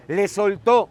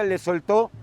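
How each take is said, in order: First: "Le soltó" repeated louder, hitting "soltó" with a held final vowel; "Le soltó" stressed and stretched for emphasis; emphatic repeat. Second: Said in the usual way. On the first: Shown as a demonstration. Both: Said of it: "o sea, le liberó".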